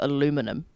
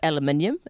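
First: It is said with an American pronunciation. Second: It is said with a New Zealand pronunciation. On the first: "but you guys have got aluminium" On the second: "we've obviously got aluminium in New Zealand"

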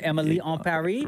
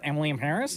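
First: The middle word sounds like French 'en'. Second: The middle word sounds like English 'in'. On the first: The speaker calls it right. "we were told how to say it properly" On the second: The speaker calls it wrong. "Not Emily in Paris"

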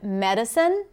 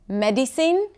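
First: The unstressed vowels are reduced to schwa. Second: The unstressed vowels are said as full vowels. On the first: "instead of" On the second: "not using the schwa doesn't necessarily take away from your clarity"

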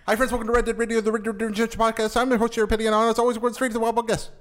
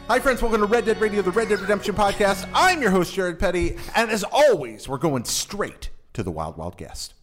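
First: It is said very fast. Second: It is said fairly slowly.

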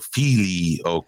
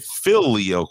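First: The first i sounds like a long ee. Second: The first i sounds short, as in fill. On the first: "Some people want to emphasize the I as an E" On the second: "like Philip"

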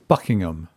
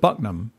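First: The name is said in its full, standard form. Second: The name is squashed into a short local form.

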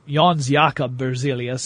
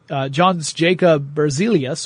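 First: The name is pronounced the Swedish way. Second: The name is pronounced the English way. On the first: The speaker calls it right. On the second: The speaker calls it wrong.

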